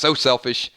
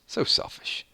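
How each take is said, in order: First: It is read in a plain everyday voice. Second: It is read in a low, sultry voice.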